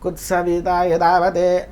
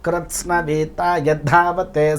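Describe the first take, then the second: First: The consonant clusters and aspiration are simplified away. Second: The consonant clusters and aspiration are said in full. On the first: The speaker calls it wrong. "నేను విన్నది చెప్తున్నా" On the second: The speaker calls it right. "రుద్రంలో ఒక వాక్యం ఇది"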